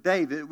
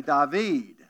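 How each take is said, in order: First: Said in the usual way. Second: David said the French way, "Daa-vee", dropped final d; David with a Cajun French "Daa-vee". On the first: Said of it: "you say the word David". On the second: Shown as a demonstration. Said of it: "we say David".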